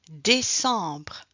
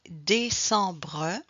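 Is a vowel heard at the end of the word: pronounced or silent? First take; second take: silent; pronounced. First: The word ends on br with no vowel. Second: A final vowel sound is heard after the br. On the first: "and after just to remove this last letter" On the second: "you can start with this way to pronounce the E at the end"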